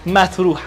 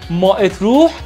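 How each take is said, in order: First: The two words are joined into one. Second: The two words are said separately. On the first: The speaker calls it right. "تلفظ دقیقش متروح هستش" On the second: The speaker calls it wrong. "ما اتروح تلفظ نکنین"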